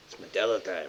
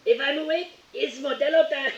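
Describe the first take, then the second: First: Softer, offhand meme quote. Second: Higher, playful meme catchphrase; Modelo meme voice. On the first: Retelling how the internet quoted it, offhand. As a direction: drop the catchphrase casually. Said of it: "the internet's just". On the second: Gamer riffing on the Modelo meme, playful. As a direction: toss off the meme line with a grin. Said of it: "when that meme first started". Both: Retold or imitated.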